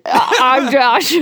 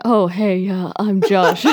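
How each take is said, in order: First: Slow, higher weird Josh voice; awkward greeting. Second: Awkward greeting. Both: Pretend. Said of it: "weird Josh impersonation".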